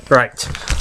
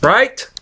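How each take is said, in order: First: Said in the usual way. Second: High rising question; questioning rise. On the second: Shown as a demonstration. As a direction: ask it with a lift. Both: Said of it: "Say right".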